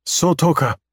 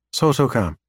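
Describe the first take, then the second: First: High alien voice. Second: Said in the usual way. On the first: Acted. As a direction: sing out the alien word. Alien names the star.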